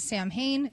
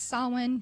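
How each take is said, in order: First: The word is pronounced the way it is spelled. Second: The word is pronounced unlike its spelling. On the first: This is how most people say it. The speaker calls it wrong. "Everybody pronounces it Samhain" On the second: This is the correct way to say it. The speaker calls it right. "It's Samhain, just a heads up"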